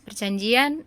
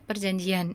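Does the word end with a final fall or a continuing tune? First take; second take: continuing; final fall. First: The voice stays up, as if continuing. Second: The voice falls to a full stop. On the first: The sentence goes on to the next words. The speaker calls it right. "karena masih nyambung dengan kalimat setelahnya" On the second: The sentence ends here. The speaker calls it wrong. "itu berarti berhenti"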